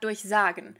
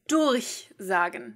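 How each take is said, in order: First: The stress is on the second syllable. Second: The stress is on the first syllable. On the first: The verb is inseparable. The speaker calls it wrong. "not durchsagen" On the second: The verb is separable. The speaker calls it right. "Separable, of course, because it's durchsagen"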